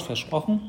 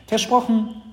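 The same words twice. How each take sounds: First: „Versprochen?“ with a higher, rising question tune; „Versprochen“ as an expectant question; asking for a promise. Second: High, loud, firm „Versprochen“ that falls at the end; pitched-up, emphatic pledge; little sister promising. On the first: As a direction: check earnestly, lifting the end of „Versprochen“. Brother demands a promise. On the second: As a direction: confirm it eagerly in a child's voice. Sister gives her promise. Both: Acted.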